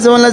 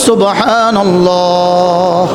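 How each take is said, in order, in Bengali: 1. শব্দটি অগোছালোভাবে উচ্চারণ করা হয়েছে, ধ্বনিগুলো বিকৃত। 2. শব্দটি সাবধানে উচ্চারণ করা হয়েছে, প্রতিটি ধ্বনি স্পষ্ট। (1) "অশুদ্ধ বললেন" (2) "তিনটা একসাথে চলবে"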